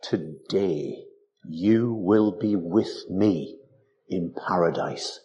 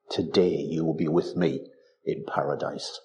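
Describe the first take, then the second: First: Very slow, lower, grave promise; solemn Jesus. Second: Said in the usual way. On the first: Retold or imitated. Preacher quoting Jesus to the thief, slow and solemn. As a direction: lay each word down slowly like a vow. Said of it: "Yet Jesus said". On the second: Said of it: "repeated line".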